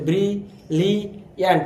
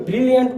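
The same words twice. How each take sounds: First: "brilliant" in three separate beats, brie, লি, য়ান্ট; "brilliant" broken into three slow parts; syllable by syllable. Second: Said in the usual way. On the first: Shown as a demonstration. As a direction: slowly sound out "brilliant" with pauses between syllables. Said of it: "তিনবারে উচ্চারিত হচ্ছে". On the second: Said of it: "কয়বারে উচ্চারিত হচ্ছে".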